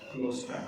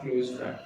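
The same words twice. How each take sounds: First: The word close ends with an s sound. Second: The word close ends with a z sound. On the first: It means a friend who is near and dear. The speaker calls it right. "We can say क्लोज friend" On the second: It sounds like the verb for shutting something. The speaker calls it wrong. "Not क्लोज friend"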